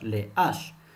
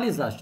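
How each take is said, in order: First: The s is not linked to the following word. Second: The s is linked to the following word. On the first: The speaker calls it right. "ils n'acceptent pas la liaison" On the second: The speaker calls it wrong. "on ne dit pas"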